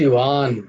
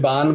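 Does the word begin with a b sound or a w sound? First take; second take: w sound; b sound. First: The word begins with a soft w sound. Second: The word begins with a full b sound. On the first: The speaker calls it right. "আমি বলছি ওয়ান। আমার দুটো ঠোঁট ঠেকছে না" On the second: The speaker calls it wrong. "এতকে আমি বান বলছি না কিন্তু"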